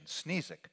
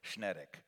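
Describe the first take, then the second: First: The surname is said with an English pronunciation. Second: The surname is said with a Polish pronunciation. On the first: "So Sneezek is the English translation" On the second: "in the way you would say it in Polish, would be Schnedek"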